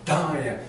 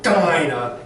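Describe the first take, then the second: First: "Dinah" with a lightly punched D; just a little inflection on the D of "Dinah"; slight stress on D. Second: "Dinah" hit loud and drawn out; overdone DINAH. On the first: Coach showing the wanted take, lightly stressed D in "Dinah". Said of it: "a little bit of inflection on the D". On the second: Coach showing what not to do, overdone "Dinah". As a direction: punch "Dinah" too hard, slowly. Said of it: "but just a little bit of inflection". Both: Shown as a demonstration.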